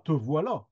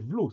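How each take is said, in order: First: Both syllables of voilà are said in full. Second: The first syllable of voilà is dropped. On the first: "C'est pas te voilà" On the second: "c'était v'là"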